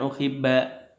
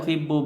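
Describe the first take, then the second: First: The word ends with an a vowel. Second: The word ends with a u vowel. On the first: The verb follows a particle. The speaker calls it wrong. "bukan uhibba" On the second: The verb follows no particle. The speaker calls it right. "dibaca uhibbu"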